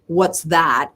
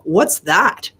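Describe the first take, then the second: First: Said in the usual way. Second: A mild sarcastic sneer on "What's that?"; sarcastic, condescending. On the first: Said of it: "she doesn't ask me". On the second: Retold or imitated. Mom unimpressed by daughter's second car, mildly condescending. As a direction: look down your nose at it, lightly mocking. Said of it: "very sarcastic, condescending kind of way".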